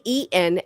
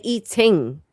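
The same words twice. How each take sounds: First: EATEN with swallowed T, ending in n; dropped-g eating. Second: EATING with a clear T and full ing; full -ing ending. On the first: Shown as a demonstration. American contrasting her own way, EATEN with dropped g. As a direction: say EATEN as eat-n, no ring. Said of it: "I say eaten". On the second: Retold or imitated. American copying British friend, EATING with crisp T and full ing. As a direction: sound out EATING as ee-ting. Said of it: "and you say eating".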